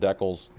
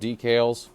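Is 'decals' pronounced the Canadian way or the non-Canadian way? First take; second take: Canadian; non-Canadian. First: The word is said the Canadian way. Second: The word is said the non-Canadian way. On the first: The speaker calls it wrong. "if you're in Canada and can't pronounce that, you call them decals" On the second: The speaker calls it right. "I'm not gonna call them decals"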